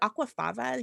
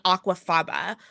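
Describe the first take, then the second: First: The last syllable begins with a V sound. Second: The last syllable begins with a B sound.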